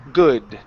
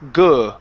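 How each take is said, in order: First: The vowel is a short uh sound. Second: The vowel is a short uh sound.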